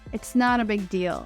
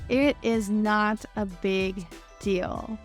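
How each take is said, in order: First: It and is merge into one contracted word. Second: It and is are said as separate words.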